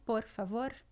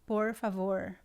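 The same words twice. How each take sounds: First: The R is a quick tongue tap. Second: The R is curled back, like English R. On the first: "Ela pode ser vibrante aqui na frente, como o Rob faz, ... É um flap" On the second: "R retroflexo, ... é similar ao R do inglês"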